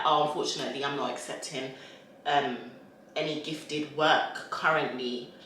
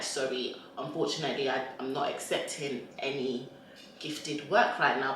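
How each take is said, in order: First: Soft, polite refusal; polite decline. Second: Polite decline. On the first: Shown as a demonstration. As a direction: turn it down kindly. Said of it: "you just say it in a polite way". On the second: Retold or imitated. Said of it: "and I'm like".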